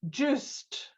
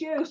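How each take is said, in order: First: The name sounds like the English word 'juiced'. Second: The name does not sound like 'juiced'. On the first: The speaker calls it wrong. "to me it said juiced, as in, you know, orange juice" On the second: The speaker calls it right. "Yes, it's Joost"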